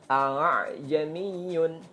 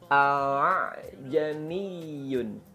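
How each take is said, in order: First: The word is said at normal speed. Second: The word is drawn out slowly. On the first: "normalnya biasanya a'jamiyun gitu" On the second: "Di slow motion atau dilambatkan"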